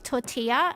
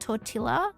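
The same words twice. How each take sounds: First: The double L is not said as an L. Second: The double L is said as an L. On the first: The speaker calls it right. "the double L's are usually silent" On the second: The speaker calls it wrong. "isn't tortilla"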